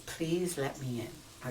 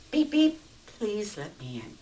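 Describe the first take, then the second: First: Slow explanation. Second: Polite beep beep. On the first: Shown as a demonstration. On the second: Acted. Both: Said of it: "the context of how he does it".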